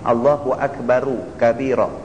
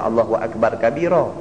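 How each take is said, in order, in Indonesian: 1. Akbar berakhir dengan tambahan vokal u. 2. Akbar berakhir dengan bunyi r saja. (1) "Kalau kita nak baca sambung" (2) "kita tak boleh baca Allahu Akbar kabira"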